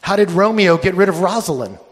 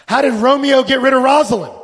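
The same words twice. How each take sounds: First: Said in the usual way. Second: Asked again, higher and louder, pressing for an answer; loud, higher insistent repeat. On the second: Shown as a demonstration. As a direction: push the question out so the room wakes up.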